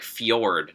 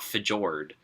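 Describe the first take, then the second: First: The J is pronounced as a Y sound. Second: The J is pronounced as a hard J. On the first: The speaker calls it right. "It's like fjord" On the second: The speaker calls it wrong. "not fjord"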